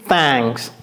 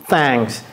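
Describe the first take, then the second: First: The vowel sounds like an open a. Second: The same.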